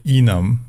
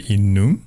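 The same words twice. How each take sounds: First: "enum" said the speaker's own way; own pronunciation of enum. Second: "enum" said the American way. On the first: Telling viewers how they say it, "enum" the speaker's way. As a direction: say "enum" in contrast to the American version. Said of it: "So I say enum". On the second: Showing viewers what Americans say, "enum" the American way. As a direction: say "enum" as most Americans would. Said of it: "Most Americans I know say enum". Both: Shown as a demonstration.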